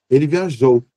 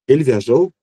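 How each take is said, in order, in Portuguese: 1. O final tem um pico enfático forte. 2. A entonação sobe no final. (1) "um pico também ali ao final" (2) "a gente vai ter que aumentar essa entoação"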